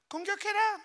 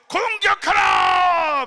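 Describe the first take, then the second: First: It is said in a high, weak voice. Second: It is said in a deep, strong voice. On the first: The command would not rally the soldiers. The speaker calls it wrong. "목소리가 여자 같은 사람이" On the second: The command would rally the soldiers. The speaker calls it right. "이래야지"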